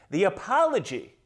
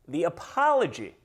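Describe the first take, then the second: No difference in how they are said.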